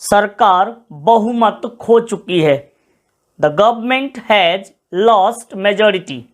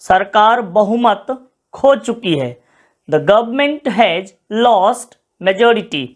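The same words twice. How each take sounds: The two takes are said the same way.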